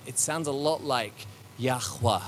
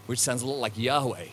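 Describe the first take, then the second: First: Yahweh with a throaty kh, "yah-khweh"; Hebrew pronunciation. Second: Yahweh as "yah-way", no kh sound; English pronunciation. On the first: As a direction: say Yahweh the Hebrew way, with a guttural kh in the middle. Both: Shown as a demonstration.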